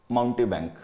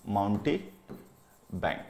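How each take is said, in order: First: Said in the usual way. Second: "माउंटी", a clear pause, then "bank" lower; split-word dictation. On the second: Shown as a demonstration. Teacher gives students a new word, split-word dictation of "माउंटी … bank". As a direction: dictate "माउंटी … bank" in two separate parts.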